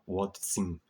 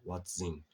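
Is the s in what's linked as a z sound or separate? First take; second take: separate; linked z. First: The words are separated, with a plain s sound. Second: The words are linked, with a z sound. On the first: The speaker calls it wrong. "Então não fala what's in the box, não" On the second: The speaker calls it right. "fala what's in. Som de Z aqui"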